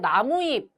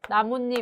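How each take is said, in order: First: The two parts join with no added n sound. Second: An added n sound links the two parts. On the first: The word is said as its two plain parts joined. "나무에다가 잎이 결합한 말이어서 나무잎 이렇게 발음을 해야 맞습니다" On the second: The word is said the way people actually say it. "그렇게 발음하지 않고 우리가 어떻게 하나요? 나뭇잎 이렇게 하죠"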